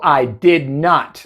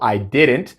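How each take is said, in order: First: The negative is a separate, emphasized word. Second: The negative is contracted without special emphasis. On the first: A strong, emphatic denial. "si realmente quiero poner énfasis" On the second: A plain denial. "Yo puedo usar la contracción también"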